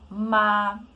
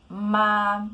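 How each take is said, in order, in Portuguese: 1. A altura se mantém alta e nivelada do início ao fim. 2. A altura se mantém alta e nivelada do início ao fim.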